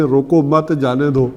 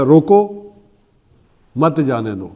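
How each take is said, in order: First: روکو مت run together, then جانے دو; slow, no break between روکو and مت; stop moved later. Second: روکو, long pause, then مت جانے دو; full stop after روکو. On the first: Teacher moving the full stop, joining روکو to مت. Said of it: "اسی فل سٹاپ کو ہٹا کے آخر میں لگا دیں". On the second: Teacher showing punctuation, pausing firmly after روکو. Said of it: "جیسے فل سٹاپ ہے". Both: Shown as a demonstration.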